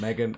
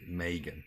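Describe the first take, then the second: First: Megan said with a short e, MEG-un. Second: Megan said with an ay vowel, MAY-gun. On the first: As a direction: begin Megan with "meg" as in leg. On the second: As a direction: begin Megan like the word "may". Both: Shown as a demonstration. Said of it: "Megan and May".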